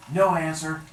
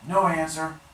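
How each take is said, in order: Both takes have the same delivery.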